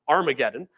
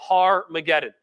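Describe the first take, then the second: First: The name starts directly with a vowel. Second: The name starts with a breathy h sound. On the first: It is the usual modern form. "normally when we say it today, we call it Armageddon" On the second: It keeps the Hebrew word for hill. "the reason that I've been saying it that way"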